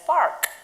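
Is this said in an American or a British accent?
American. It is said with an American, sounded r. Speaking in America. "in America, it is park, where the R is kind of rolled"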